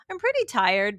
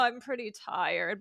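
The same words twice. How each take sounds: First: It sounds light and casual, not weary. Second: It sounds weary and drawn out, like yawning. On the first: The person is only a little tired. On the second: The person is really exhausted.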